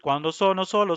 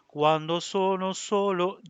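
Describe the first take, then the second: First: The phrase is read evenly, note by note. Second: The phrase is shaped with a small lingering pause. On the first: The speaker calls it wrong. "I am going to read Quando sono solo" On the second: The speaker calls it right. "You have to look for a small amount of time"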